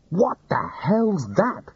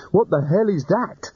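First: Yelled. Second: Frightened wizard shouting over the rattle; alarmed yell. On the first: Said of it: "he yelled". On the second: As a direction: yell it in a panic. Rincewind alarmed again. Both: Acted.

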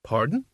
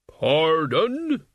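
First: Said in the usual way. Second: "Pardon?" louder, long rising tune; louder repeated pardon. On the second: A narrator's reading. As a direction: repeat "Pardon?" firmly, drawn out. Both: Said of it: "He recalled himself and repeated".

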